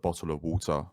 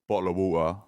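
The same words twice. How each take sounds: First: It is said with every sound carefully pronounced. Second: It is said in a casual South London accent. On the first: This is how the speaker's mother wants it said. "my mum would want me to say ... and pronounce my words" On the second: This is how the speaker naturally talks. "the South London accent in me that will just sort of say it like"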